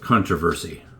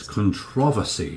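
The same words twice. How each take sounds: First: It is said the Canadian way. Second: It is said the British way. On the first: "in Canada, it's like controversy" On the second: "But in the U K, it's controversy"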